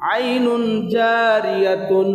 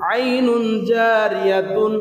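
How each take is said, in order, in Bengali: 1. শেষ শব্দটি 'tun' ধ্বনিতে শেষ হয়। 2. শেষ শব্দটি 'tun' ধ্বনিতে শেষ হয়।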